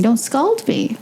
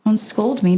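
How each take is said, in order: First: "scald" with an open aw vowel, a bit higher; "scald" stressed, burn sense; scald not scold. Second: "scold" with a short o as in cold; "scold" spoken plainly, scolding sense; scold not scald. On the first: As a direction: say "scald" like hot water burns. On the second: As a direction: say "scold" clearly, like being told off. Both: Shown as a demonstration. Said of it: "You wanna hear that one?".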